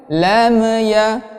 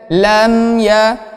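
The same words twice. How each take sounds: First: The final m bounces with a small release. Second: The final m is pressed firmly without bouncing. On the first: The speaker calls it wrong. "Lam ini sering memantul ya" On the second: The speaker calls it right. "menambah tekanan pada huruf mim sukun ini"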